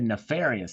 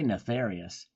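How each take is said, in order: First: The first syllable is said with an f sound. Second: The first syllable is said with a th sound. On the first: "I said nef" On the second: "I did not say neth"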